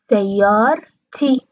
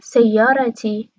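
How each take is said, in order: First: The r is followed directly by t, no vowel. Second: A vowel is heard between the r and t. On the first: "سیار تی، ر ساکن میشه" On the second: "توی لهجه قطری این شکل تلفظ میکنن ... مثل عربی فصیح"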